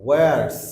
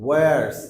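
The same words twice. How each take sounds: No difference in how they are said.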